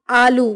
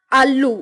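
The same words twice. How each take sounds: First: Said in the usual way. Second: Doubled L in आलू; western UP pronunciation. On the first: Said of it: "Hindi उच्चारण". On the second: Shown as a demonstration. Teacher showing western UP speech, आलू as aallu. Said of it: "पश्चिमी उत्तर प्रदेश उच्चारण".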